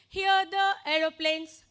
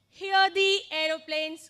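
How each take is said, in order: First: The word 'the' is said with a short 'thuh'. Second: The word 'the' is said with a long 'thee'. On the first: The speaker calls it wrong. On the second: The speaker calls it right. "got it?"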